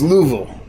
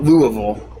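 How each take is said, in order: First: The middle sound is skipped over, making it shorter. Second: Every sound is pronounced fully, making it longer. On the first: The speaker calls it right. "They just uh, they kind of skipped over the uh" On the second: The speaker calls it wrong. "not Louisville"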